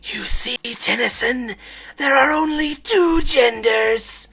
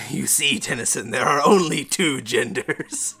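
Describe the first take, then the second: First: It is said in a put-on scary voice. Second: It is said in a plainer voice.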